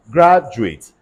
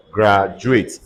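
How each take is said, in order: First: Graduate as a noun, stress on the first syllable, GRAD-uate. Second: Graduate as a verb, stress on the first syllable with a clear full -ATE ending. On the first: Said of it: "Stress changes according to the part of speech. As a noun". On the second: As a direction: say graduate with a strong final -ate. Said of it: "Stress changes according to the part of speech. As a verb". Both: Shown as a demonstration.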